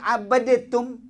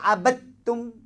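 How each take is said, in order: First: A separate d with an added vowel before tum. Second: The d merges into a doubled t sound. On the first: The speaker calls it wrong. "Kenapa tak baca abadatum? ... Yang salah baca abadatum" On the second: The speaker calls it right. "Kenapa kita baca abattum?"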